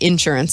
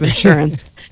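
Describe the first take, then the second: First: It is said with a Texan pronunciation. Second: It is said with a standard pronunciation. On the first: "Do you hear my Texan in that? I always say insurance" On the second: "instead of insurance"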